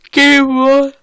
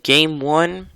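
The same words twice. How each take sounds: First: Words stretched through a big yawn. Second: Said in the usual way. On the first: Real, not acted. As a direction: say it mid-yawn, high and loud. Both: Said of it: "Sorry for yawning".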